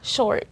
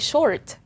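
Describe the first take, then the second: First: The final T is stopped without release. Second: The final T is released with a pop. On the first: The speaker calls it right. "we say short" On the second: The speaker calls it wrong. "We don't say short"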